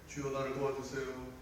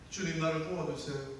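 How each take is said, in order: First: The plea is said calmly, without urgency. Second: The plea is cried out desperately.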